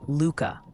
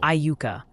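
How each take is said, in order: First: The name sounds like Luca. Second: The name does not sound like Luca. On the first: This is how the Kansas town is said. "Iuka, Kansas is apparently Luca, like the basketball player" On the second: This is how the Mississippi town is said. "That's the Mississippi version"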